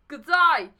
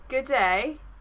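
First: It is said in a put-on Australian accent. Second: It is said in the speaker's usual accent.

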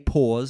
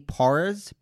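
First: It is said with a British accent, no r. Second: It is said with an American accent, with r. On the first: "I'm British. So I say pause" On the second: "I guess in America you'd say when he pours"

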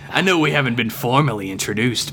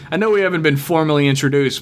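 First: It is read in a put-on character voice. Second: It is read in the speaker's ordinary voice.

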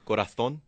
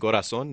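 First: The z is a lisped th sound. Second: The z is a plain s sound. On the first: "they also have a lisp. Like in Spain, they say... they go corazón" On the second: "instead of saying corazón"

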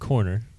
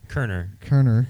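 First: The first syllable sounds like 'cor'. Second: The first syllable sounds like 'cur'. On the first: The speaker calls it wrong. "Not Corner" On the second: The speaker calls it right. "The O is silent"

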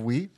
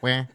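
First: The word is said with a closed 'wee' vowel. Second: The word is said with an open 'wah' vowel. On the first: "Instead of wheat" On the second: "they go, wah. It's their regional diction"

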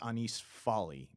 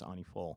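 First: It is read with English spelling sounds. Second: It is said with French sounds. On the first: The speaker calls it wrong. "if you look at it spelled out, it looks like it's Anis Folly" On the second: The speaker calls it right. "I believe the French pronunciation is Annie Folle"

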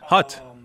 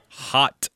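First: The vowel sounds like the one in 'hut'. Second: The vowel sounds like the one in 'hot'.

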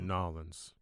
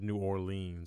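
First: The city name is squeezed into two syllables. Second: The city name is said in full. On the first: The speaker calls it right. "We say Nolens" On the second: The speaker calls it wrong. "We don't say New Orleans"

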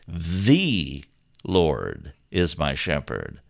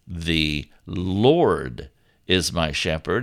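First: The stress is on "the". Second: The stress is on "Lord".

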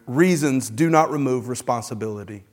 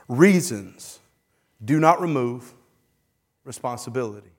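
First: It is said at a faster pace. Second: It is said slowly and deliberately.

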